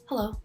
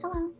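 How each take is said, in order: First: It is said in a deep, mature voice. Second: It is said in a bright, cheery woman's voice.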